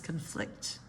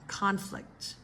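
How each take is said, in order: First: The stress is on the second syllable. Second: The stress is on the first syllable. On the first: It is used as a verb. "verbs second syllable" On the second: It is used as a noun. "Nouns typically first syllable"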